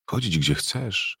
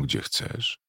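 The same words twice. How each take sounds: First: "Chodzić, gdzie chcesz" slow and soft, "Chodzić" leaned on, rising; slow dreamy repeat. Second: "gdzie chcesz" breathed with no voice, "gdzie" lifted; pure whisper. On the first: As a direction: savour "Chodzić" slowly, rising at the end. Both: A narrator's reading. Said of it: "szeptała".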